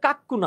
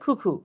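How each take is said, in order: First: The first syllable sounds like 'kak'. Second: The first syllable sounds like 'koo'. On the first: The speaker calls it wrong. "এটা আসলে কাক্কু না" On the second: The speaker calls it right. "এটার উচ্চারণ হচ্ছে খুখু"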